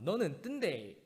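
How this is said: It is said in a Gyeongsang dialect accent.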